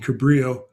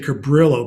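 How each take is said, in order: First: It is said with a Spanish accent. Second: It is said with an American English accent.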